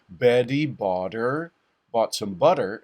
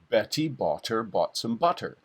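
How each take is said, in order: First: The t sounds are quick light taps. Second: The t sounds are fully released with pressure. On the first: "don't say" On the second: "you don't sound like a human being"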